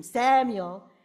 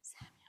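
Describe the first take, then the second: First: Loud mock scream of a name. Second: Hushed whisper of the name; barely audible, gentle whispered call; very soft. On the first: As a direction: shout the name out, far too loud. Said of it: "God doesn't scream". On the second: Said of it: "He talks very softly". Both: Shown as a demonstration.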